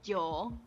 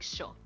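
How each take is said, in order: First: The word begins with a 'y' sound. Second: The word begins with a 'sh' sound. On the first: This is how most other South Americans say it. "like a lot of like other South Americans would say" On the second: This is how Rio de la Plata speakers say it. "We say sho"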